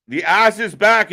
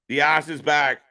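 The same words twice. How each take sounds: First: Loud, high, rising hype call; excited announcement. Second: Said in the usual way. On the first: Real, not acted. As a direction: sell it like a big return. Announcing a returning wrestler.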